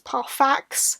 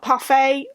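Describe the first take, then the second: First: The final X sound is clearly pronounced. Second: The final X sound is left silent. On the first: The speaker calls it right. "it's pronounced Ferius Parfax" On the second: The speaker calls it wrong. "not parfait. I always thought it was like a silent X"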